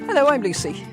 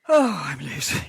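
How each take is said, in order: First: It is said in a chirpy, bright tone. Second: It is said in a bored, flat tone.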